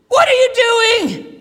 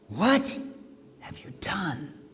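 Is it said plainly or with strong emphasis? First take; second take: strong emphasis; plainly. First: It is said with strong, forceful emphasis. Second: It is said plainly, without added force.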